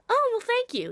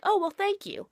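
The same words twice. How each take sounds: First: High polite thanks. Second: Polite thanks. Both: Retold or imitated. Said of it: "I'm gonna get the sentiment and be like".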